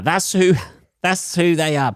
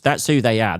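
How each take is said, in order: First: Much higher, laughing through the words; giggling repeat. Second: Said in the usual way. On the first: Shown as a demonstration. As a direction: crack up as you repeat it. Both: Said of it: "repeated with laugh".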